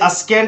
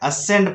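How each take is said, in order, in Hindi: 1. s के बाद k ध्वनि उच्चारित होती है। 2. s के बाद कोई k ध्वनि सुनाई नहीं देती। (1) "अस्केंड नहीं पढ़ना है" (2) "असेंड पढ़ना है"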